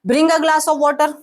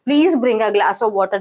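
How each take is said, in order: First: It sounds like a firm, authoritative order. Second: It sounds like a soft, polite request.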